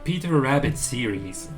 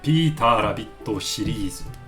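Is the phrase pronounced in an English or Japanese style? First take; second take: English; Japanese. First: It is pronounced the English way. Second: It is pronounced the Japanese katakana way. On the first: The speaker calls it wrong. "dites pas Peter Rabbit series" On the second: The speaker calls it right. "prononcez-les bien à la japonaise"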